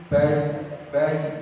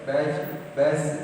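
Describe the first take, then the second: No difference in how they are said.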